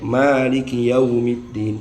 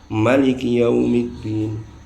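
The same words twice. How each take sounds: First: The first vowel of maliki is held long. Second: The first vowel of maliki is kept short. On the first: "bacaan kita" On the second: "Ada yang baca pendek"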